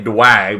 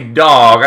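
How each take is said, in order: First: The word is said with a 'wa' sound. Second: The word is said with a plain 'o' vowel. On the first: It mimics a typing mistake as a joke. "I say Dwag because I typo I R L" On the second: This is the usual word. "I don't say dog"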